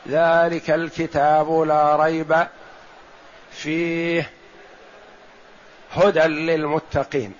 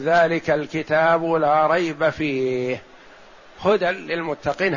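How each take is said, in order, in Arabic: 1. يكون الوقف بعد «لا ريب» وبعد «فيه». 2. وقف واحد يكون بعد «فيه» فقط. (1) "لا يصح أن تقول في القراءة" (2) "هذه أولى"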